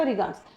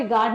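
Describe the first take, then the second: First: "रिगार्ड्स" with a final s, lower and softer; plural ending sounded. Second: Said in the usual way. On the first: Shown as a demonstration. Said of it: "रिगार्ड नहीं होता". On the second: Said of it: "नहीं होता".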